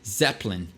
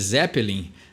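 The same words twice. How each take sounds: First: The name has an English pronunciation, rhyming with win. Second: The name has a Brazilian Portuguese pronunciation. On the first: The speaker calls it right. "mas na verdade é Zeppelin. E aí rima perfeitamente com win" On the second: The speaker calls it wrong. "A gente costuma falar Led Zeppelin"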